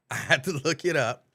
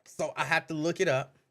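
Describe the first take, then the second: First: Louder, laughing as he repeats. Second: Said in the usual way. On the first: Real, not acted. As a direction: laugh through the words.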